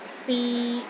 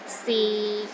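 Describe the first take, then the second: First: The pitch stays steady in the middle. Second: The pitch stays low and steady. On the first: It means to try. "in the middle of your range and it is steady" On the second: It means is. "low and steady, but not as low as the fourth tone"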